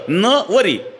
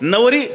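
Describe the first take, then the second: First: The first syllable is stressed and set apart. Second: The word is said plainly, without special stress. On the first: She will not take him as husband. "नवर जोर दिला" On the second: She is the bride. "नवरी सरळ"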